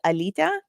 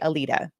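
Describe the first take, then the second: First: The name has its native Lithuanian pronunciation. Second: The name has an anglicized English pronunciation. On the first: This is how Lithuanian speakers say it. "in Lithuanian, it's pronounced" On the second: This is the easier form for non-Lithuanian speakers. "for non-Lithuanian speakers, I say"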